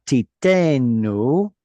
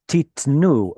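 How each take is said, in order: First: Titenu with a long, stressed TE; titenu, slow, weight on the middle syllable. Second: Titnu with the final NU stressed; titnu, weight on its final syllable; stress on the last syllable. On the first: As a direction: draw out and hit the -te- in titenu. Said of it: "that was a pausal form, so the stress went here". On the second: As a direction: land on the -nu of titnu. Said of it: "titnu is the normal form, where the stress moves to the end". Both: Shown as a demonstration.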